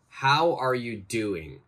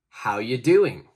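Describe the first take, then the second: First: Every word is said fully and separately. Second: 'Are you' is joined into one short sound.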